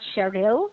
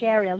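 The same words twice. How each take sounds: First: The stress is on the second syllable. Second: The stress is on the first syllable. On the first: The speaker calls it wrong. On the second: The speaker calls it right. "stress is usually at the start"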